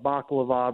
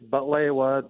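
First: The word is said as baklava, with k and v. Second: The word is said as butlewa, with t and w. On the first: This is the common way people say it. The speaker calls it wrong. "A lot of people call it baklava" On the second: This is the Arabic way to say it. The speaker calls it right. "It's butlewa, the Arabic way"

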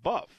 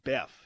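First: The vowel sounds like the one in cup. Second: The vowel sounds like the one in bed. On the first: This is how people in the south say the name. "down south, that's pronounced buff" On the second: This is how the local managers say the name. "But they pronounce it Beff"

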